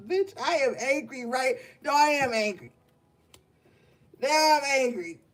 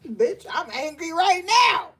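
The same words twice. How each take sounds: First: Higher, pushed mock anger that keeps correcting itself into rage; hammed-up anger. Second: Higher, louder fake fury that breaks into laughter; laughing mock anger. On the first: To the gang, talking himself into a pretend fury. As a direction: ham up being angry, talking yourself into it. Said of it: "I'ma act like I'm angry". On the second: Telling the gang off, a pretend outburst that dissolves into laughing. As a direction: pretend to be mad but crack up mid-line. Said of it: "I'm not angry, gang, but I had to say that".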